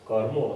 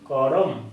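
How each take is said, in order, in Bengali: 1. r সরাসরি m-এর সঙ্গে জুড়ে যায়। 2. r-এর পরে একটি পূর্ণ স্বরধ্বনি আসে। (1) "রয়েরই যখন উচ্চারণটা কম করে দিলাম" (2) "যদি রেফ ফলা না থাকতো"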